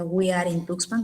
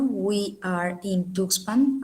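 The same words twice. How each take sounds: First: Said in the usual way. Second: Said slowly, word by word: "We are in Tuxpan"; slow repeat. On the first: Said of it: "vamos a ver la otra oración". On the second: Shown as a demonstration.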